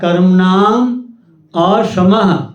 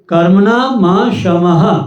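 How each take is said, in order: First: The words are said apart as separate words. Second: The words are run together without a break. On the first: "लेकिन अलग अलग" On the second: "मूल में है कर्मणा म शम"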